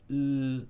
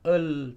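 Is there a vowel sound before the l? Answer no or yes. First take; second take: no; yes. First: The l sound is said alone. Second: A vowel comes before the l sound. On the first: The speaker calls it right. "tapi sebut l" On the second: The speaker calls it wrong. "Jangan sebut el"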